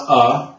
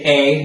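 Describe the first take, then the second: First: A reduced to "uh"; the weak schwa in "a"; short A. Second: A said as "ay"; the letter-name vowel in "a"; long A. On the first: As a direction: say "a" as a lazy "uh". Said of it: "not a". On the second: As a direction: say "a" as a full "ay". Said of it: "you're gonna say a". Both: Shown as a demonstration.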